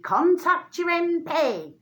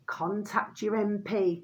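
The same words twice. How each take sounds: First: Mocking quote. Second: Mock parroting. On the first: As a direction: parrot the empty advice slowly, in a put-on voice. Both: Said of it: "All you hear".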